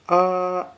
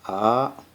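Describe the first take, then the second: First: It is said with the first tone. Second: It is said with the second tone. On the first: "the first tone pronounced like ah" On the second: "The second tone pronounced like ah"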